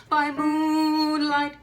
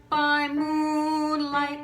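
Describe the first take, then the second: Both takes have the same delivery.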